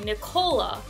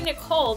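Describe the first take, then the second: First: The name ends with an extra vowel sound. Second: The name ends on the final consonant sound. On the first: "they say Nicola. ... They put an at the end" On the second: "When they say Nicole"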